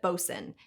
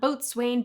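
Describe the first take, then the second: First: It is said short, ending in 'sun'. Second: It is said as spelled, ending in 'swain'. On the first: The speaker calls it right. "but bosun" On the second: The speaker calls it wrong. "it's not boatswain"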